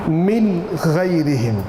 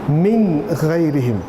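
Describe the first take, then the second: No difference in how they are said.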